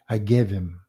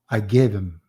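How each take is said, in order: First: The words are run together with reduced him. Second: The words are run together with reduced him.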